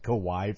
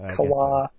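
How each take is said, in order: First: The name ends with a 'why' sound. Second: The name ends with a 'wa' sound. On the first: The speaker calls it wrong. "I always thought it was Kawhi for some reason" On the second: The speaker calls it right. "It's K-A-W-A. Melky Kawa"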